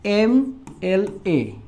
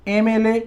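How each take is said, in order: First: "एम एल ए" letter by letter, drawn out; spelled out slowly. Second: Said in the usual way. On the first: Shown as a demonstration. Teacher showing how it is pronounced, "एम एल ए" slow and separated. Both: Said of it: "तो कैसे उच्चारण कर रहे हैं".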